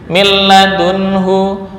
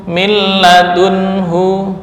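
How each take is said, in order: Both takes have the same delivery.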